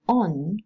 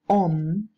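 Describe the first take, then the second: First: The word ends in an n sound. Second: The word ends in an m sound. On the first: "which is alveolar" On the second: "may be pronounced om"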